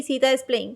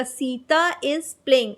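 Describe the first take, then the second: First: "Sita is playing" run together quickly without intonation. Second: "Sita is playing" slow and measured, with intonation on "Sita"; proper intonation. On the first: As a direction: rattle off "Sita is playing" with no stress on "Sita". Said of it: "ऐसे नहीं बोलेंगे कि". ("Sita is playing" बिना उतार-चढ़ाव, एक साँस में जल्दी) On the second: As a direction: stretch "Sita", then let "is playing" follow slowly. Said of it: "हमारा इंटोनेशन रहेगा". ("सीता is playing" उतार-चढ़ाव के साथ, ठहरकर) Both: Shown as a demonstration.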